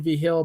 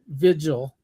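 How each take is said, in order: First: The name has a New Mexican Spanish pronunciation. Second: The name has a plain English pronunciation. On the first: This is how the name is said where the speaker grew up. "I say V Hill ... I pronounce it like it's Mex New Mexican" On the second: This is how the name's owner says it. "he says Vigil"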